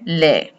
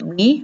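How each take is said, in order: First: The vowel sounds like a Spanish 'e'. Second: The vowel sounds like English 'ee'. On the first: The speaker calls it right. "We're going to say le" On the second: The speaker calls it wrong. "we're going to want to pronounce it Lee, but we're not going to"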